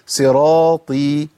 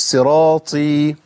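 First: Slow صراطي with a firm, breathless ط; clean ط. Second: Slow صراطي with breath leaking on the ط; wrong airy ط. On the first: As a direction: draw out صراطي, no air on the ط. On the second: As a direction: demonstrate the faulty whispered ط in صراطي. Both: Shown as a demonstration. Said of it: "مش صراطي".

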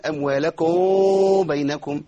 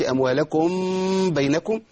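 First: Faulty demo, lips too far apart ending أموالكم; exaggerated concealment. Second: Faulty demo, lips closed fully on the mim of أموالكم; over-clear mim. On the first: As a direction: slowly chant أموالكم, overdoing the hidden mim. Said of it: "إخفاء كبير قوي". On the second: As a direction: chant أموالكم with a firmly sounded final mim. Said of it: "لا أظهر الميم". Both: Shown as a demonstration.

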